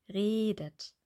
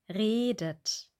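Both takes have the same delivery.

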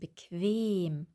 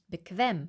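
First: The second-syllable e is long. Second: The second-syllable e is short. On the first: The speaker calls it right. "sondern bequem" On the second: The speaker calls it wrong. "nicht bequem"

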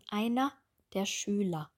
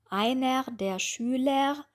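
First: The ending -er sounds like a short a vowel. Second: The ending -er has a consonant r sound. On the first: The speaker calls it right. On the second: The speaker calls it wrong. "Wir sagen nicht einer"

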